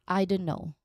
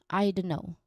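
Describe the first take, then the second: No difference in how they are said.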